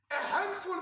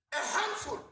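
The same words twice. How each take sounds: First: Handful lifted and leaned on; a handful, hit the word handful; stress on handful. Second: Said in the usual way. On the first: Shown as a demonstration. Rally speaker to comrades, stressing handful. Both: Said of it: "I want to emphasize that word".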